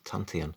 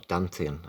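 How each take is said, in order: First: The word begins with a T sound. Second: The word begins with a D sound.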